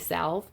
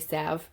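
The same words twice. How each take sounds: First: The L sound is pronounced. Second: The L sound is left out. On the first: This is the speaker's own way of saying it. "but I say salve" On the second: This is how many other people say it. "for people who like to say salve without the L"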